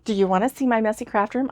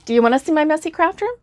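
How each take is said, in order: First: Said in the usual way. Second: High, fast, eager question; excited invite. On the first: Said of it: "if anybody asked me". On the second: Real, not acted. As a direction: ask it like a bubbly tease, rising high. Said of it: "I thought maybe you might wanna see".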